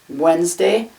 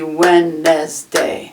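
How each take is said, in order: First: The word is said with two syllables. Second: The word is said with three syllables. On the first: "Wednesday has two syllables" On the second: "it looks like it could be Wednesday"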